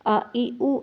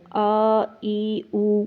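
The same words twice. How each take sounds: First: آ ای او said fast and clipped short; quick short vowels. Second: آ ای او drawn out slow, like a long standing zabar; wrongly lengthened vowels. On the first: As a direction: snap آ ای او out quickly, no stretch. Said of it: "جلدی سے ادا کرنا ہے". (آ ای او جلدی اور مختصر) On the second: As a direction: stretch آ ای او too long to show the mistake. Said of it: "وہ کھڑی زبر بن جائے گا". (آ ای او کو غلط طور پر لمبا کر کے) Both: Shown as a demonstration.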